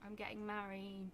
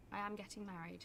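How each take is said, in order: First: Said in the usual way. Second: "am" stretched and pushed hard; stress on am. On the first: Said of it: "When you get married?". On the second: Shown as a demonstration. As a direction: lean on "am" to insist.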